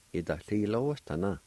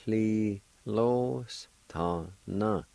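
First: Yi to li lo s ta na run together fast; quick natural pace. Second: Li lo s ta na drawn out slowly; slow model. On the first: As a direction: say Yi to li lo s ta na briskly as in speech. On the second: Teacher modelling the word slowly for learners. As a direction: stretch each syllable of li lo s ta na. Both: Shown as a demonstration. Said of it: "is pronounced like this".

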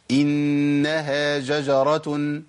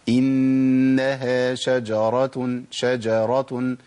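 First: شجرة said with a j sound instead of sh, very slow; shin turned into jim, wrong. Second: شجرة with a clear sh, drawn out very slowly; correct shin. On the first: Teacher mocking students who swap shin for jim. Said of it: "فيبدل الشين بجيم". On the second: Teacher giving students the correct reading of شجرة. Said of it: "الصح إن أنا أقول إيه؟". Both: Shown as a demonstration.

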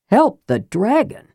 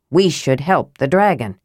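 First: Higher, astonished echo question; incredulous. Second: Said in the usual way. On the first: A narrator's reading. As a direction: throw it back in disbelief, rising at the end. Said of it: "Karaman goggled".

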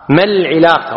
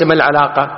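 First: العلاقة with i after the ع; correct kasra form. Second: العلاقة with a after the ع; mistaken fatha form. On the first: Teacher corrects common usage, العلاقة with kasra. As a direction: say العلاقة as "al-ʿilaqa". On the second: Teacher shows what not to say, العلاقة with fatha. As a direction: say العلاقة as "al-ʿalaqa". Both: Shown as a demonstration. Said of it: "وليس ما العلاقة".

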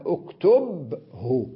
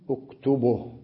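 First: اكتبه very slowly as uktub... hu; drawn-out uktub-hu for اكتبه; still ba, full ending. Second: اكتبه as uktubuh, breathed final h; pause with vowel transfer. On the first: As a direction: split اكتبه after a vowelless ب. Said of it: "الباء التي كانت ساكنة". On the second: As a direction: put u on the ب of اكتبه, silence the ending. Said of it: "لاحظ كيف ضممت الباء". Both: Shown as a demonstration.

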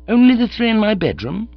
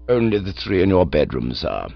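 First: Higher, rising disbelief on "Only the three in my bedroom?"; incredulous echo. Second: Calm valet. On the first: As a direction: echo the butler in sheer disbelief. Bertie echoes Jeeves. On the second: Jeeves answers calmly. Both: Acted.

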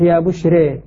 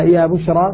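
First: يا بشرى with the final alif tilted toward ya, "re"; full imala. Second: Said in the usual way. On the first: Shown as a demonstration. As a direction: say يا بشرى ending in a long "ree/ray" vowel, the ra thinned. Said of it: "ري، لاحظ أن الراء لما أملتها". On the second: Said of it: "فمثلًا يا بشرى تصبح".

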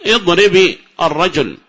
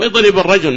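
First: "اضرب" slowly, with an i after the final b; linking kasra sounded. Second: Said in the usual way. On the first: Shown as a demonstration. Teacher correcting himself to show the kasra, "اضرب" said slowly as idribi. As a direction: draw out "اضرب" as idribi before الرجل. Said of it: "كسرة موجودة". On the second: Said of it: "معذرة".

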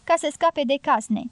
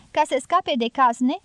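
First: „ca să scape de cazne.” rostit ca afirmație, cu tonul coborând la final; confirmă sec, coborând tonul pe „cazne”. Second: „Ca să scape de cazne?” rostit ca întrebare, cu tonul urcând la final; întreabă, ridicând vocea pe „cazne”. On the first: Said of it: "răspunse Robert Jordan". (ton afirmativ, coborând pe „cazne”) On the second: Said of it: "întrebă femeia". (ton întrebător, urcând pe „cazne”) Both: A narrator's reading.

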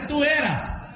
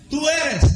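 First: "tú eras" said high as the contrast, eras marked; tú eras held up as a counterexample; quoting the wrong form. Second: "Tú eres" with a firm, high push on eres; stress on eres. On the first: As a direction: set eras apart as the wrong version. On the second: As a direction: hit eres hard, present tense. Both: Shown as a demonstration. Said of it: "no dice".

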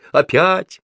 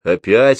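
First: «Опять!» thrown back much higher; high-pitched, insistent «Опять!» in reply; emphatic answer. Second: «Опять?» as a loud rising question; loud, querying «Опять?», only slightly raised in pitch. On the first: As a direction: call «Опять!» back high, lifting at the end. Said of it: "ответила Груша". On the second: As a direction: ask «Опять?» with a raised voice and a lift at the end. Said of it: "спросила крашеная тётка". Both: A narrator's reading.

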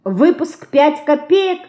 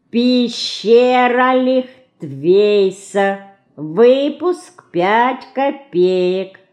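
First: "Выпуск пять копеек" high, rising to a question; high-pitched, wondering query; puzzled echo question. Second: Very slow, "Выпуск пять копеек" broken into syllables; measured, drawn-out syllables on an even higher note. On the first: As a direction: repeat it back slowly in surprise. Sister echoes it back, puzzled. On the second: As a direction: spell it out slowly, syllable after syllable. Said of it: "пояснила по складам Динка". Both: A narrator's reading.

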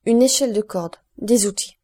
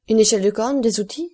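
First: "Une échelle de corde, des outils" as two falling items; confirming statement. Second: Louder guess, rising into a question; eager exclamation. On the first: Guide confirming "Une échelle de corde, des outils" to the count, stated with falling tune. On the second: Count guessing what the guide found in the cell, eager exclamation. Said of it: "s'écria le comte". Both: A narrator's reading.

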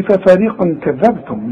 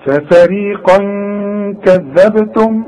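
First: ففريقا كذبتم run straight on with no nasal hold; wrong, no ghunna. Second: ففريقا كذبتم slow, the n hummed before the k; correct held ghunna. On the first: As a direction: rush from ففريقا into كذبتم without humming the n. (وصل «ففريقا كذبتم» بدون غنة) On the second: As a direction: hold a nasal hum between ففريقا and كذبتم. (غنة ممدودة بين «ففريقا» و«كذبتم») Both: Shown as a demonstration. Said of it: "ولا بد انك تغن عند الوصل".

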